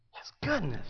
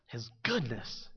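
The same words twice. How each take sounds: First: Said in the usual way. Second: Tender hush. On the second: Real, not acted. Tender repeat after question.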